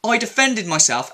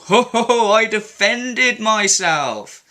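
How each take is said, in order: First: Said in the usual way. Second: Scoffing laugh, then her words drawn out slowly; mocking laugh. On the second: Commenter scoffs at her self-defence claim, mocking and slow. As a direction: laugh her excuse to scorn.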